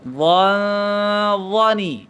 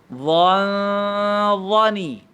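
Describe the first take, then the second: The two takes are said the same way.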